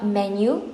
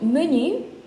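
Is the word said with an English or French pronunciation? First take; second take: English; French. First: It is said with an English pronunciation. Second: It is said with a French pronunciation. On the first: The speaker calls it wrong. "not menu" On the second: The speaker calls it right. "You are supposed to pronounce it as is, which is in French"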